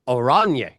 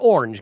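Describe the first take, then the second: First: It is pronounced the Dutch way, oranje. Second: It is pronounced like the English word orange. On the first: The speaker calls it right. "It is oranje, mean in Dutch" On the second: The speaker calls it wrong. "It's not orange, guys"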